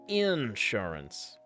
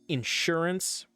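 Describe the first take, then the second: First: The stress is on the first syllable. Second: The stress is on the second syllable. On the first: This is how southern US speakers say it. "in the south, they go" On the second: This is how northern US speakers say it. "with the emphasis on shore"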